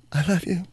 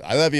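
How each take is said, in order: First: Higher-pitched mock-heartfelt endearment; face-grabbing devotion. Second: Offhand, automatic endearment; in passing. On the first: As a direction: imitate an over-earnest goodbye. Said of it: "grab her face and go". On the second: Shown as a demonstration. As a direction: say it in passing, like a pat. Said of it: "exhale passing".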